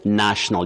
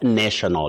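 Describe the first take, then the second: First: The first vowel sounds like 'nat', short a. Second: The first vowel sounds like 'nay' in nation. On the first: The speaker calls it right. "You say national" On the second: The speaker calls it wrong. "not national"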